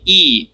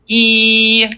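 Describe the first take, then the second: First: Said in the usual way. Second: "e" drawn out long on a steady higher note; stretched vowel. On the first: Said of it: "take the e". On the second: Shown as a demonstration. Teacher turning a short e long, sustained "e". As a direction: hold the "e" like a sustained tone. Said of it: "make it into an e".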